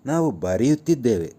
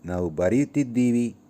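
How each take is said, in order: First: The verb ends with the sound 'deve'. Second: The verb ends with the sound 'divi'.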